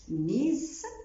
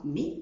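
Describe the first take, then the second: First: The final s is pronounced. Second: The final s is silent. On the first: The speaker calls it wrong. "ما نطقتهاش ميز" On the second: The speaker calls it right. "نطقتها مي"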